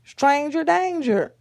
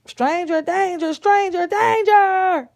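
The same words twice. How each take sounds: First: Loud, raised-pitch slogan call; warning call. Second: High, loud chant building to a drawn-out yell; full-volume alarm cry for the child to copy; shouted alarm. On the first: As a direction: model the warning for a child. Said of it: "what Mama told you to say". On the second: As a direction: shout the warning for help, stretching the repeat. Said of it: "Say it". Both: Shown as a demonstration.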